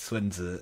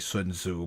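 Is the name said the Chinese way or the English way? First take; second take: Chinese way; English way. First: The name is said with a Chinese pronunciation. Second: The name is said with an anglicized pronunciation. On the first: The speaker calls it right. "but like it's Sun Tzu" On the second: The speaker calls it wrong. "most English speakers say Sun Tzu"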